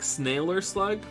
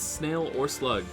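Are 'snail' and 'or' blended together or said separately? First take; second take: blended; separate. First: Snail and or blend together like sailor. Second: Snail and or are said as separate words. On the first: The speaker calls it wrong. "I always want to say it like sailor" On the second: The speaker calls it right. "but it's snail or slug"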